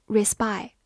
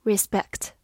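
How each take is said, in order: First: Respect said wrongly, the end clipped to rispai; wrong pronunciation. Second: Respect said with a full vowel and a clear final kt; correct pronunciation. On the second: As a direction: say respect properly, ending on kt. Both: Shown as a demonstration. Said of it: "注意不要发成respect".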